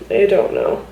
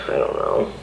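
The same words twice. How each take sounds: First: Said in the usual way. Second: Low, breathless, breaking whisper; I don't know almost voiceless, choking up; tearful whisper. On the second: Real, not acted. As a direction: barely get it out through tears. Tearful, overwhelmed mother venting.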